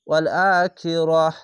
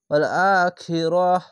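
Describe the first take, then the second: First: The last word ends in an h sound. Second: The same.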